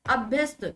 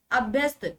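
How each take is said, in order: Both takes have the same delivery.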